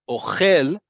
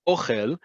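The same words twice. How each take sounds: First: The stress is on the last syllable. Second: The stress is on the first syllable. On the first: It means eats. "accent on the last syllable is I, you, he eats" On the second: It means food. "emphasis on the first syllable is food"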